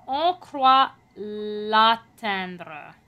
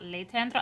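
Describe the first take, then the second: First: On croit l'atteindre with a clear open A in atteindre; open A vowel. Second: L'éteindre with a closed E sound; wrong E vowel. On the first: Coach showing the French vowel to the singer. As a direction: say l'atteindre with a bright open A, slowly. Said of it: "make sure that your A vowel". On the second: Coach showing the mistake to avoid. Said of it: "not l'éteindre". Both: Shown as a demonstration.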